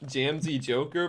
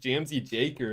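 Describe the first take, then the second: First: The second word has an 'oh' vowel. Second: The second word has an 'ay' vowel. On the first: This is the intended reading of the name. The speaker calls it right. "I hope I'm pronouncing this right" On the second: This is a habitual misreading of the name. The speaker calls it wrong. "but I always read it as"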